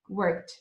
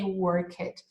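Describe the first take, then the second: First: The word ends with a T sound. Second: The word ends with a D sound. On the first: The speaker calls it right. "We say like a T sound" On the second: The speaker calls it wrong. "We don't say worked"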